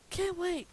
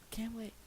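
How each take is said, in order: First: High, loud sarcastic cheer; mock excitement. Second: Whispered flat aside; deadpan whisper. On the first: Reader faking glee about a three-hour reading, mock cheer. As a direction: fake enthusiasm, squealed up high. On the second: Acted. Reader muttering the truth to listeners, whispered. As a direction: drop it to a defeated whisper.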